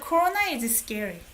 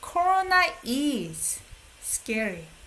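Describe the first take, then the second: First: The word is carries no special stress. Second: The word is carries the main stress. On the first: It simply states that it is scary. "Instead of" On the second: It acknowledges that it really is scary. "people would put emphasis by the accent"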